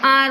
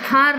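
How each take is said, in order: First: The word begins directly with a vowel sound. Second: The word begins with an audible h sound. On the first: The speaker calls it right. "इसको आर बोलते हैं ना" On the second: The speaker calls it wrong. "हार नहीं"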